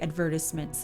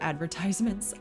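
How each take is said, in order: First: The word is said the British way. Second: The word is said the American way.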